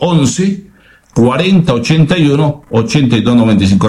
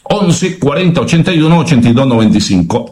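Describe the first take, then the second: First: The number is said slowly. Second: The number is said at normal speed.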